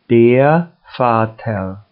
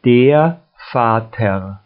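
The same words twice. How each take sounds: The two takes are said the same way.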